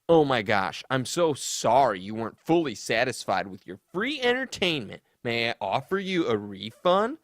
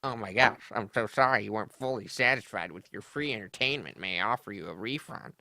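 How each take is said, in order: First: Sassy apology. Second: Fast, sneering sassy mimicry; sneering imitation, fast and dismissive; sassy mockery. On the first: Retold or imitated. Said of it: "Ray responds". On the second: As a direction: mimic his snotty apology. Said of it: "Listen to that sass".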